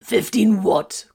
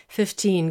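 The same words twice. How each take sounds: First: Fifteen what? said louder, slow and falling; incredulous. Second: Said in the usual way. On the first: A narrator's reading. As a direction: stretch Fifteen in disbelief. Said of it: "Corvin wanted to know".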